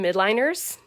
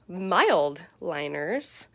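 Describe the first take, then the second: First: The first part sounds like 'mid', without an L. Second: The first part sounds like 'mild', with an L. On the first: The speaker calls it wrong. "I called them midliners" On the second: The speaker calls it right. "They are called mild liners"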